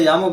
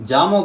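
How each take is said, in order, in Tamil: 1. பெயர் Y ஒலியுடன் தொடங்குகிறது. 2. பெயர் J ஒலியுடன் தொடங்குகிறது. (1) "உச்சரிப்பு படி யாமோன்னு" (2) "ஜாமோன்னு சொல்லி பழகிட்டோம்"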